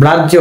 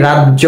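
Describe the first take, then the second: No difference in how they are said.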